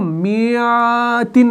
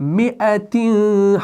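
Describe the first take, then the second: First: The second vowel is long, with a y-glide. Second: The second vowel is short, with a glottal catch. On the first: The speaker calls it wrong. "हम इसको मियातिन नहीं पढ़ते हैं" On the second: The speaker calls it right. "तो हम इसको क्या पढ़ते हैं"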